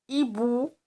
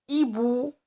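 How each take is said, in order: The two takes are said the same way.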